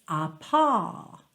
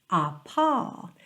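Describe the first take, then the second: The two takes are said the same way.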